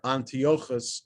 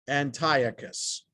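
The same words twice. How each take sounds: First: The name is said with Hebrew pronunciation. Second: The name is said with English pronunciation.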